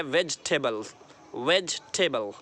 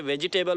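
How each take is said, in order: First: वेजिटेबल squeezed to "vej-tebal"; correct pronunciation. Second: वेजिटेबल in four parts, "ve-ji-tay-bal"; wrong pronunciation. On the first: Teacher correcting learners, three-part "vej-te-bal". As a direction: drop the middle i in वेजिटेबल, falling. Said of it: "लेकिन वे वेजिटेबल नहीं है". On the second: Teacher quoting the common error, extra "ji" syllable. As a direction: sound the "ji" in the middle of वेजिटेबल. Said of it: "बोलते हैं". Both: Shown as a demonstration.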